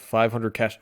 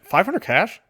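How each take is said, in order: First: Said in the usual way. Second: Higher mock disbelief on "Five hundred cash?"; incredulous. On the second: Reviewer repeating the price in mock disbelief. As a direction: echo "Five hundred cash?" as if it's absurd.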